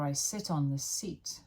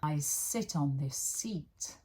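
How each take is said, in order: First: The sentence is said quickly. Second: The sentence is said slowly. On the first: "So I say it faster" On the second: "Say it slowly at first"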